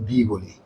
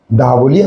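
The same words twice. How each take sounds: First: "দি" with an "ee" vowel. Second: "দা" with an open "ah" vowel. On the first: Teacher gives the alternative form, "দি" as "dee". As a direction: say "দি" as "dee", softer. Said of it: "আবার কখনো এটাকে আমরা". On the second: Teacher contrasts two forms of "the", "দা" as "daa". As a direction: say "দা" clearly as "daa". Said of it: "এটাকে আমরা কখনো". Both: Shown as a demonstration.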